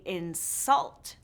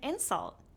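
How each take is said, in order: First: The stress is on the second syllable. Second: The stress is on the first syllable. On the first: It is used as a verb. "these two syllable verbs often stress the second syllable" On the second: It is used as a noun. "The nouns often stress the first syllable"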